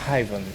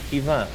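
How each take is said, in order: First: The name is pronounced with English sounds. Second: The name is pronounced with its native sounds. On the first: The name is adapted for English listeners. "like English way of saying it" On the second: The name is kept as it really is. "I will say my name is Ivan because that's my name"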